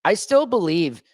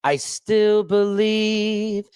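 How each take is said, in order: First: Said in the usual way. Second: Stretched very slowly, higher; drawn out. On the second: Shown as a demonstration. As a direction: linger on each word.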